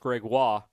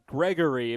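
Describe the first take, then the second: First: The name is said with a French twang. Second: The name is said the American way.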